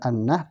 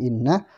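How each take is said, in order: First: The first vowel is an open 'a' sound. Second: The first vowel is a high 'i' sound. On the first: The speaker calls it wrong. "bukan annah" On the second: The speaker calls it right. "tapi innah"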